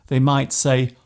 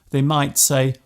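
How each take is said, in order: No difference in how they are said.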